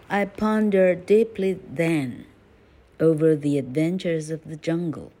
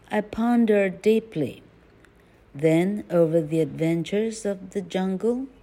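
First: There is no pause right after 'deeply'. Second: There is a pause right after 'deeply'. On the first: The speaker calls it right. "再一次" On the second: The speaker calls it wrong. "断句错误"

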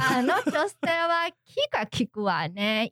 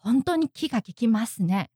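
First: It sounds sarcastic, with a slightly rising tone. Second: It sounds like sincere, admiring praise.

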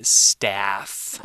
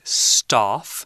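First: It is said with an American pronunciation. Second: It is said with a British pronunciation. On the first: "if you're from the United States or you speak American English, you should say staff" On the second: "if you're from the UK, you would probably say staff"

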